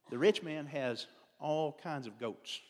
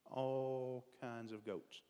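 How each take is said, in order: First: Slow, drawn out, stressing rich; slow emphasis. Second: Very slow, softer repeat of "All kinds of goats"; slow soft echo. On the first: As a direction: lean on "rich" and stretch the line. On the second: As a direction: let "All kinds of goats" sink away slowly. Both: Shown as a demonstration.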